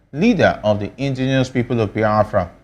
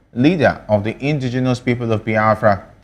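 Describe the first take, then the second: No difference in how they are said.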